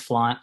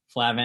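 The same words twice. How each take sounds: First: Flaunt, said like the word flaunt, rhyming with haunt; correct pronunciation. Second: Flavin, said as two syllables, FLAY-vin, the way it looks; Flavin, the wrong reading people give the name; common mispronunciation. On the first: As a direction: say flaunt, not Flavin. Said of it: "it's pronounced flaunt". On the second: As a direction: read the spelling literally as Flavin. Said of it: "spelled phonetically like you would think it's Flavin". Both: Shown as a demonstration.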